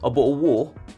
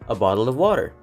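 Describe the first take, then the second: First: Fast British accent with glottal stops replacing t's. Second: Clear American accent with both words fully pronounced. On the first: "in British English... gumamit sila ng tinatawag na glottal... kung babasahin mo na mabilis" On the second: "In American English, they usually pronounce a bottle of water as a bottle of water"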